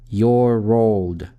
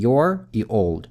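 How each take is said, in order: First: The r is linked straight into the next vowel. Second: The r is not linked to the next vowel. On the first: The speaker calls it right. "звук р соединяется с гласным звуком" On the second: The speaker calls it wrong. "просто произносят отдельно"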